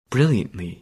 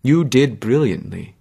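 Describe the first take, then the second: First: Wry echo. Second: Said in the usual way. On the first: Acted.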